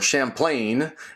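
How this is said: The name is said with an American pronunciation.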